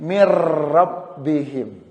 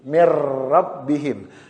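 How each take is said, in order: First: The n merges into a doubled r sound. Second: The same.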